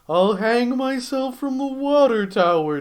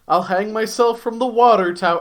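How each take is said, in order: First: It is read in a put-on character voice. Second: It is read in the speaker's normal voice.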